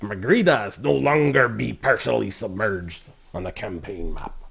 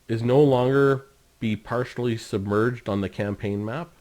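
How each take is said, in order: First: It is read in a put-on pirate voice. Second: It is read in his normal voice.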